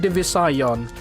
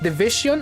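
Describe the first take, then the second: First: The ending sounds like 'scion'. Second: The ending sounds like 'vision'. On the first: "I prefer to call it divisayon because hmm" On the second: "either you pronounce that word as division"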